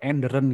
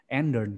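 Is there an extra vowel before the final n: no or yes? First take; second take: yes; no. First: An extra vowel is inserted between r and n. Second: The r and n run together without a vowel. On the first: The speaker calls it wrong. "terkesan medok" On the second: The speaker calls it right. "Endern gitu ya"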